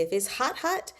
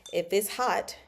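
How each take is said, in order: First: "hot, hot" with the second HOT jumping up high; doubled for emphasis. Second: Said in the usual way. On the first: Shown as a demonstration. Explaining doubled words to viewers, emphatic repeated "hot". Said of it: "it's to add emphasis". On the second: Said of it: "when we say something twice".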